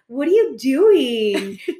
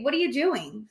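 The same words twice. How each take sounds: First: It is said in an exaggerated, irritating way. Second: It is said in a plain, neutral way. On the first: This imitates how he actually said it. The speaker calls it wrong. "do you have to" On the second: This is how it should be asked. The speaker calls it right. "Can't you just say"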